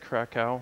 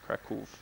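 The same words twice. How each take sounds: First: It ends in an 'ow' sound, English style. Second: It ends in a 'v' or 'f' sound. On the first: This is how foreigners and travelers say it. "Most people say Krakow, most foreigners and travelers" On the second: This is how locals say it. "the W in Polish is pronounced like a V sound, so it's Krakow, or almost like an F at the end"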